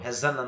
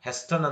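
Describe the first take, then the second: First: The t sound is silent. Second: The t sound is pronounced. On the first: The speaker calls it right. "ಹೆಸನ್ ಅಂತ ಹೇಳಬೇಕು" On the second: The speaker calls it wrong. "ಹೆಸ್ಟನ್ ಅಂತ ಹೇಳಬಾರ್ದು"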